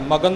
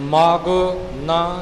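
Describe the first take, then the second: First: The two words run together as one word. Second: The two words are kept clearly apart. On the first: The speaker calls it wrong. "ਮਗਨ ਨਹੀਂ ਹੋਣਾ" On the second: The speaker calls it right. "ਨੰਨੇ ਨੂੰ ਇੱਥੇ ਵੱਖਰਾ ਵੀ ਕਰਨਾ ਹੈ"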